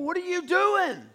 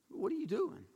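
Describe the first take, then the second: First: High, louder mock-indignant demand; exasperated outburst. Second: Soft, acted disbelief; stunned. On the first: King confronting the prophet he paid, exasperated outburst. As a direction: burst out in acted exasperation. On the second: King confronting the prophet who blessed his enemies, quietly stunned.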